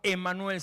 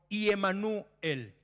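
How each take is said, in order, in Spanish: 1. El nombre empieza con un sonido 'e' simple. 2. El nombre empieza con un sonido 'ye'. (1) "se diría no Emanuel" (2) "sino Iemanuel. Empieza con una I"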